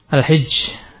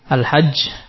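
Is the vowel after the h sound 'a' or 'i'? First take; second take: i; a. First: The first vowel is a high 'i' sound. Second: The first vowel is an open 'a' sound. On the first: "dengan mengkasrahnya" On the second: "dengan fathah huruf ha"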